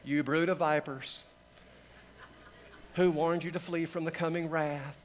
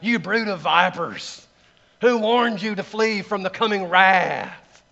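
First: It is said mildly, without fire or force. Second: It is said forcefully, like a fiery preacher.

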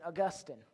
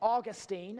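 First: It is said the learned-sounding way. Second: It is said the American way.

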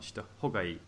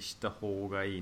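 First: The o in the second word is short. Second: The o in the second word is long. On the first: The speaker calls it wrong. "not shita hōgai" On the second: The speaker calls it right. "but it's actually shita hōgai"

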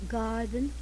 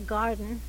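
First: The R sound is soft and light. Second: The R sound is strong and harsh.

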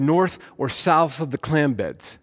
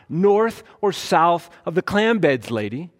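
First: It is said at normal volume. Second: It is said loudly.

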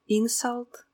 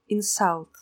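First: The stress is on the first syllable. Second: The stress is on the second syllable. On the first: It is used as a noun. "обида" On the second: It is used as a verb. "обижать"

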